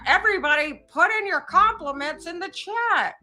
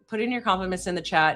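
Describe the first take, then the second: First: It is said in a put-on voice. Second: It is said in his normal voice.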